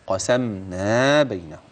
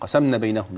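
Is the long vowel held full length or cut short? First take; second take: full length; cut short. First: The long vowel is held full length. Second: The long vowel is cut short. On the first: The speaker calls it right. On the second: The speaker calls it wrong.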